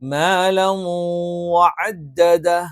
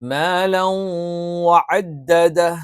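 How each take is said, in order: First: The n merges nasally into the following w. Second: The same.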